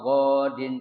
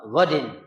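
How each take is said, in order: First: The first vowel is drawn out long. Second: The first vowel is kept short. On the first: The speaker calls it wrong. "jangan dibaca nawaitu sauma godin itu salah" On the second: The speaker calls it right. "akhirnya pendek ya"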